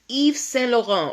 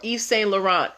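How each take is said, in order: First: It is said in a French style. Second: It is said in an American style.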